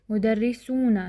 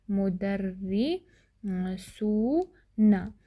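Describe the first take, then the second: First: Said in the usual way. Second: Very slow, broken into मु-दर्रि-सू-ना; syllable by syllable. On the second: Shown as a demonstration. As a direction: sound out मुदर्रिसूना slowly, drawing out सू. Teacher sounds out the new plural. (मुदर्रिसूना को तोड़-तोड़ कर, बहुत धीरे)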